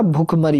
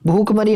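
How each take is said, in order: First: "भूख मरी" with short "bhu"; short quick u. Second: "भूख मरी" with drawn long "bhoo". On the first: Teacher giving students the correction, भूख मरी with short u. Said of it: "जल्दी बोलेगा भूख". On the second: Teacher showing students the mistake, भूख मरी with long u. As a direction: say भूख मरी as "bhookh-mari". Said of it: "भूख मरी नहीं होता". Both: Shown as a demonstration.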